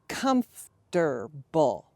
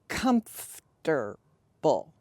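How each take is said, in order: First: The word is said with three syllables. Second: The word is said with three syllables.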